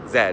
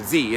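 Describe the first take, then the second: First: The letter is named the non-American way. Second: The letter is named the American way. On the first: "We say Z for the letter Z" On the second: "as you say in America"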